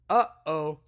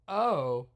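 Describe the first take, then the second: First: A catch in the throat splits the vowels. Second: The two vowels run together without a break. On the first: The speaker calls it right. "you're slicing it with your throat" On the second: The speaker calls it wrong. "because that combines the sounds"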